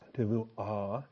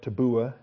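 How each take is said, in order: First: The middle consonant is a soft v. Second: The middle consonant is a hard b. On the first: The speaker calls it right. "I prefer to soften the bath there after the shawa. So tavua is how I would pronounce it" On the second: The speaker calls it wrong. "Looks like tabua"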